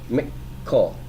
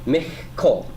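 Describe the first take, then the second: First: Both k sounds are hard stops. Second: The first k sound is a raspy fricative. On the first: The speaker calls it right. "Both of the Kafs will be pronounced as a hard stop consonant" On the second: The speaker calls it wrong. "you might be tempted to pronounce this as Michkol"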